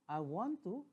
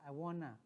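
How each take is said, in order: First: Each word is said fully and separately. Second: The words are linked into a reduced form. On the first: "If you like to say" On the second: "some native speakers say"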